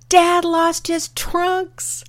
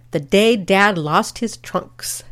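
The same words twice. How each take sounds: First: High, drawn-out, hammed-up exclamation; mock amused mom's cry. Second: Slow, measured caption read. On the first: Mom laughing at grandfather out in the surf, mock amused cry. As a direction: call it out as mom realizing, stretched high. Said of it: "suddenly starts laughing". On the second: Retold or imitated. Daughter reading mom's caption in the family album, measured title read. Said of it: "my mother's handwritten caption".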